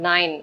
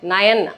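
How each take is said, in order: First: The word is said as one syllable, nine. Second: The word is said as two syllables, nay-an. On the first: The speaker calls it right. "It's நைன் அப்படி சொல்லுவாங்க" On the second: The speaker calls it wrong. "நயன் அப்படின்னு சொல்லக்கூடாது"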